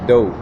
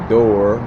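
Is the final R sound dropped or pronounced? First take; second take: dropped; pronounced. First: The final R sound is dropped. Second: The final R sound is pronounced. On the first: "we say dope" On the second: "instead of saying door"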